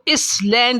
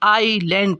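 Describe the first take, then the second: First: The word is said with an s sound. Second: The word is said with no s sound. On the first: The speaker calls it wrong. "इसको इस लैंड नहीं पढ़ेंगे" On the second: The speaker calls it right. "इसमें एस silent है, आईलैंड पढ़ेंगे"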